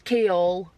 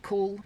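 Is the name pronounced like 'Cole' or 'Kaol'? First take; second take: Kaol; Cole. First: The name is pronounced like 'Kaol'. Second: The name is pronounced like 'Cole'. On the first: The speaker calls it right. "It's not. It's Kaol" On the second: The speaker calls it wrong. "I was convinced it was Cole"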